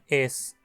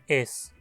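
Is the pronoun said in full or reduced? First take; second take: full; full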